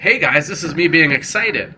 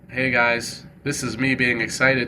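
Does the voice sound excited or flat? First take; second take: excited; flat. First: The voice is lively, varied and high in energy. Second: The voice is flat, stiff and low in energy. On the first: The speaker calls it right. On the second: The speaker calls it wrong.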